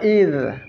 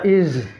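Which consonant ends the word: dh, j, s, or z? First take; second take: dh; z. First: The word ends in a dh sound. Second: The word ends in a z sound. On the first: The speaker calls it right. "Ini huruf dha" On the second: The speaker calls it wrong. "dibaca iz"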